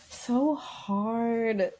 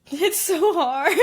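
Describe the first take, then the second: First: Said in the usual way. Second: Laughing through the words; slow, high and laughing. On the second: Real, not acted.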